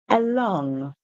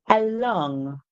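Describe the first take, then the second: The two takes are said the same way.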